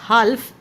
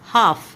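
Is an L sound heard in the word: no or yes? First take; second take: yes; no. First: The L sound is pronounced. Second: The L sound is silent. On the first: The speaker calls it wrong. "It's not हाल्फ" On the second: The speaker calls it right. "एल की आपकी sound नहीं आती है"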